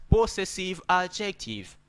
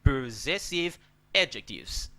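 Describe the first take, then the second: First: Possessive adjective with a full PO and s sounds; school pronunciation. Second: Possessive adjectives with stress on ZESS; correct pronunciation. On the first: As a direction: say possessive adjective as PO-sessive AD-jek-teev. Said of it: "they taught us possessive adjective". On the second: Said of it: "It better saying possessive". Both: Shown as a demonstration.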